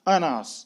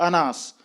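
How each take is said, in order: No difference in how they are said.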